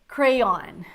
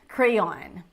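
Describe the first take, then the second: The two takes are said the same way.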